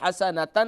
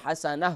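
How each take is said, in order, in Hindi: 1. शब्द एक पूरे 'tan' अक्षर पर खत्म होता है। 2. शब्द एक छोटी 'ah' ध्वनि पर खत्म होता है।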